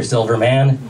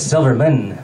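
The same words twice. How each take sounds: First: "Silverman" with a full, open "man" at the end; "Silverman" ending like the word "man"; mispronounced surname. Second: "Silverman" with the last syllable reduced to "mun"; surname-style "Silverman", swallowing the a in "man"; corrected surname pronunciation. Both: Retold or imitated. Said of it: "It's Silverman".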